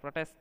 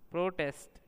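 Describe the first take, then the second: First: The stress is on the last syllable. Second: The stress is on the first syllable. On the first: It is a verb. "यानी क्रिया है" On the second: It is a noun. "यानी संज्ञा है"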